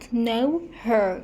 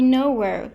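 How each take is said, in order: First: The h in 'her' is pronounced. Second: The h in 'her' is dropped. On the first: The speaker calls it wrong. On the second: The speaker calls it right.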